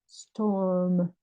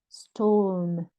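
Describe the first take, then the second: Both takes have the same delivery.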